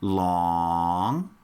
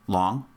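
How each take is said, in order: First: The word is said long and drawn out. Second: The word is said short and clipped.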